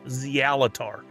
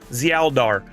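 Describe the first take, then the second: First: The name is said with a T sound. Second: The name is said with a D sound. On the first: The speaker calls it wrong. "I thought there was a T" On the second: The speaker calls it right. "There's a D"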